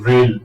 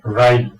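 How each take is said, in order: First: The vowel sounds like 'ay'. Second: The vowel sounds like 'eye'. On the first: The speaker calls it right. "इसको बोलते हैं हम रेल" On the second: The speaker calls it wrong. "ना कि राइल"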